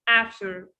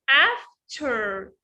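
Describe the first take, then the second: First: The T sound in the middle is dropped. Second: The T sound in the middle is clearly pronounced. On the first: "they drop the T here" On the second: "وبنعطش التي هنا"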